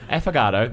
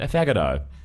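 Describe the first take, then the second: First: The second syllable sounds like 'fog'. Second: The second syllable sounds like 'fag'.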